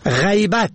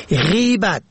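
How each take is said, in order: First: غیبت said "ghaybat", ay glide first; fatha on first letter. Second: غیبت said "ghibat", long i first; kasra on first letter. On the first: Teaching the word for absence, ay glide. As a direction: say غیبت as "ghay-bat". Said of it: "به فتح اول". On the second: Teaching the word for backbiting, long i vowel. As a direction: say غیبت as "ghee-bat". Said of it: "به کسر اول". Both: Shown as a demonstration.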